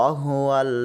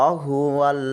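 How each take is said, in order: Both takes have the same delivery.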